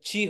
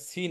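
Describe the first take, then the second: First: The syllable begins with a ch sound. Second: The syllable begins with an s sound. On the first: The speaker calls it right. "এটা চি হবে উচ্চারণটা" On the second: The speaker calls it wrong. "এটা সি না"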